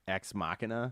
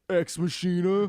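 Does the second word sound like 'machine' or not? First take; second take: not machine; machine. First: The second word does not sound like 'machine'. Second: The second word sounds like 'machine'. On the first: The speaker calls it right. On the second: The speaker calls it wrong.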